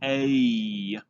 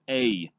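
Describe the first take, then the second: First: The vowel is drawn out slowly, gliding across. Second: The vowel is said quickly, at normal speed.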